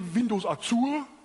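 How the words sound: It is said with a German accent. "Or we in Germany"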